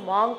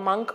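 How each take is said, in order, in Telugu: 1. ఈ అచ్చు దీర్ఘమైన 'ah' ధ్వని. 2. ఈ అచ్చు హ్రస్వమైన 'uh' ధ్వని. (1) "మాంక్ అనేది దీని incorrect pronunciation" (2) "that has to be pronounced as మంక్ only"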